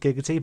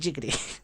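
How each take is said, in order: First: The word begins with a hard g sound. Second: The word begins with a j sound. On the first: The speaker calls it right. "I made his catchphrase Giggity" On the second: The speaker calls it wrong. "thing pronounced it Jiggity"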